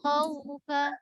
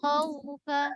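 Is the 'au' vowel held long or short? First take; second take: short; short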